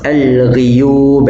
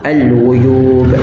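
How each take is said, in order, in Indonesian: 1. Vokal setelah gh adalah i. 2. Vokal setelah gh adalah u. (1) "membaca dengan kasrah pada lafaz al-ghuyub" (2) "membaca dengan dhammah al-ghuyub"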